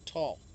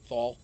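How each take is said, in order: First: The syllable starts with a plain t sound. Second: The syllable starts with a th sound. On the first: The speaker calls it right. "No, tall" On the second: The speaker calls it wrong. "now you got me saying thal"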